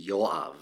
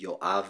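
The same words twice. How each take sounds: First: Yoav stressed on its first syllable, YO-av. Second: Yoav with the weight on the final syllable, yo-AV; Israeli pronunciation. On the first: Guest correcting the American version of the name, Yoav with first-syllable stress. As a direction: put the weight on the Yo in Yoav. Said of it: "people usually put the stress on the first syllable". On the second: Guest showing the name as said in Israel, Yoav stressed at the end. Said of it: "but in Israel, it would be". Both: Shown as a demonstration.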